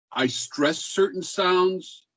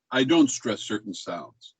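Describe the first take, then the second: First: Slow, higher, with STRESS leaned on; stressed delivery. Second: "don't stress certain sounds" dropped lower, without emphasis; unstressed delivery. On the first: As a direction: demonstrate stress by stretching "stress" and "sounds". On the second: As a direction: let "certain sounds" fall away low, unaccented. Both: Shown as a demonstration.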